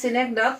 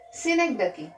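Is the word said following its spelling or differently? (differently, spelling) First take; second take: spelling; differently. First: The word is read out following its spelling. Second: The word is said differently from its spelling. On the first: The speaker calls it wrong. "spelling written, we can also read it as synecdoche" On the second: The speaker calls it right. "we have to pronounce it correctly as synecdoche"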